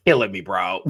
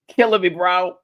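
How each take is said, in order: First: Said in the usual way. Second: Higher and louder for emphasis; louder emphatic repeat. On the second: Real, not acted. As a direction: punch it out louder the second time.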